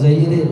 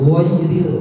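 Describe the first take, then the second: First: The first vowel is an 'e' sound. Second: The first vowel is an 'ai' sound. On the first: The speaker calls it wrong. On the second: The speaker calls it right.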